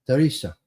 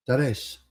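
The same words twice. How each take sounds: First: Said in the usual way. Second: Teresa said as "teh-REHS", last vowel dropped; Italian-style Teresa. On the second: Shown as a demonstration. Neighbor greeting the lady across the street, Teresa said "teh-REHS".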